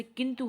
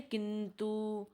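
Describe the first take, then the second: First: Said in the usual way. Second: किंतु drawn out slowly to kintoo; किंतु as slow "kin-tooo"; long final U. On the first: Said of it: "छोटा ऊ लिखते हैं". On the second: Shown as a demonstration. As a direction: hold the last vowel of किंतु very long. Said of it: "बड़ा ऊ".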